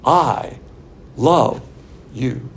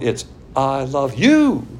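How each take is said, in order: First: Spaced out I, love, you; impersonal I love you. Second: Slow, tender I love you; personal I love you. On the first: Preacher demonstrating God's impersonal love, word by word. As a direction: set each word apart with pauses. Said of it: "It's his fantastic impersonal love". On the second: Preacher contrasting personal love, slow and tender. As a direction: draw out I love you gently. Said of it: "If it's personal love". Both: Shown as a demonstration.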